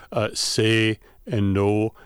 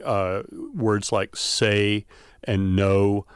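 First: Slow "say" and "no" with steady unchanging vowels; monophthong vowels. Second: Slow "say" and "no" with gliding vowels; diphthong vowels. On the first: Professor demonstrating the steady Wisconsin vowels. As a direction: hold the vowel in "say" and "no" flat. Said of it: "They're much more stable". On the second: Professor demonstrating the usual American gliding vowels. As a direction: let the vowel in "say" and "no" slide. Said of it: "two vowel qualities". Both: Shown as a demonstration.

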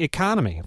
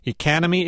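First: Economy with an open O, e-KON-omy. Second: Economy with a flat A, e-KAN-omy; fronted O in economy. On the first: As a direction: say economy with the O of con. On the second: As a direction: say Economy with the A of can. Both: Shown as a demonstration. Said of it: "our key word here is economy".

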